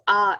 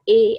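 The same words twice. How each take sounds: First: The letter is said with a German vowel. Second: The letter is said with an English vowel. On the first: The speaker calls it right. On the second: The speaker calls it wrong.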